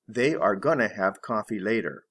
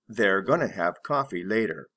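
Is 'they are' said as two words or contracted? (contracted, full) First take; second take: full; contracted. First: They are is said as two full words. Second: They are is contracted into one syllable. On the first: "full be gonna" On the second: "Reduced or contracted form"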